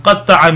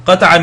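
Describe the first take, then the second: First: "qatta'a" with a held double t; doubled-consonant qatta'a. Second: "Qata'a" with a short single t; single-consonant qata'a. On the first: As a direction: hold the t in "qatta'a" before releasing it. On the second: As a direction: say "Qata'a" lightly, without doubling the t. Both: Shown as a demonstration. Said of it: "qata'a versus qatta'a".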